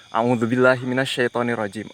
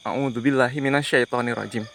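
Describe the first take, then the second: No difference in how they are said.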